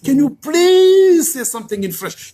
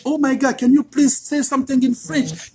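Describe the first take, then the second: First: PLEASE stretched long, high and loud; mock-gushing plea with a long, drawn-out "please"; delighted begging. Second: Higher-pitched imitation of an eager American fan; mock-gushing plea; delighted request. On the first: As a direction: lean hard and long on "please", imitating an eager fan. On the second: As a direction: ask like a delighted admirer. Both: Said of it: "Ils sont contents".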